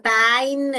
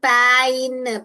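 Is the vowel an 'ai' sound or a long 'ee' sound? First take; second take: ai sound; ai sound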